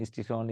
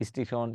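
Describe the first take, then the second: The two takes are said the same way.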